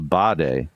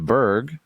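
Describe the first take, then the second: First: The word is said with a Swedish pronunciation. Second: The word is said with an American pronunciation. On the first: The speaker calls it right. "is how you actually say it" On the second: The speaker calls it wrong. "as us ignorant Americans call it"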